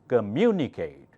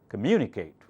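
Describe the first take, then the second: First: The word is said slowly. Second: The word is said quickly. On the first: "First slowly" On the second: "Now faster"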